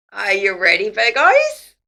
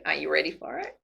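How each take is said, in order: First: Louder and higher, rising to a cry; rally the Virgos; excited call-out. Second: Said in the usual way. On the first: Real, not acted. Tarot reader hyping up her Virgo viewers, excited call.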